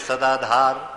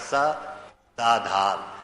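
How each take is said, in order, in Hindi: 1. शब्द बिना किसी विराम के एक साथ जुड़े हुए हैं। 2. पहले अक्षर के बाद एक छोटा विराम है। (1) "अब हम क्या बोलते हैं" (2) "तो सा के बीच में रुकना है जरा सा"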